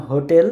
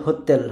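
First: Said in the usual way. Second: হোতেল with dental t; Polish soft T. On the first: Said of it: "ইংরেজিতে আমরা যেরকম উচ্চারণ করতাম". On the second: Shown as a demonstration. Teacher contrasts Polish with English, হোতেল with soft t. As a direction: say হোতেল, tongue on the teeth for t. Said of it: "টির জায়গায় বলে".

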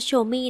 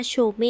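First: โชเม่ with a falling tone on the last syllable, French style; French pronunciation. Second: Put-on โชเม said the old way, ending on a plain level tone; the earlier โชเม, last syllable without the falling tone mark; old pronunciation. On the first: Shown as a demonstration. Host adopting viewers' French reading of Chaumet, falling final tone. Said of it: "ถ้าเป็นภาษาฝรั่งเศสก็ต้องอ่านว่าโชเม่". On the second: Host quoting her earlier reading of Chaumet, plain level ending. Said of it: "ก่อนหน้านี้แอดมีการออกเสียงว่าโชเม".

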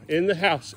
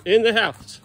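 First: Said in the usual way. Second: Firmer command. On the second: Real, not acted. Owner telling a stubborn dog to come in, firmer call. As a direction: push the repeated order harder, leaning on "In". Repeats the order more forcefully.

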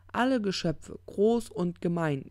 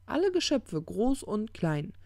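First: Slightly raised, ponderous quoting voice. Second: Emphatic correction. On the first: Misquotes, then corrects himself. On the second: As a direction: restate it high and loud, then draw it out. The corrected quote. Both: Acted.

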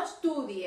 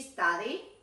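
First: "estudie", Spanish u and a leading e; wrong study. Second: "study" as "stady", open first vowel; correct study. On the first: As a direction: show the mistake, "study" as "estudie". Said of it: "no estudie". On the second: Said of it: "Ojo con la pronunciación de study". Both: Shown as a demonstration.

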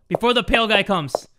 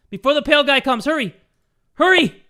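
First: Said in the usual way. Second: Pitched up, rising to a yell on Hurry; urgent panic. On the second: Real, not acted. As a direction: beg yourself to hurry. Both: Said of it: "repeated more urgently".

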